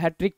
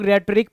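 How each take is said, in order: First: The word starts without an R sound. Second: The word starts with an R sound. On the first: "वैसे इसको हैट्रिक पढ़ते हैं। ... जहां पे आर silent होता है" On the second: "कुछ लोग रेटरिक पढ़ सकते हैं"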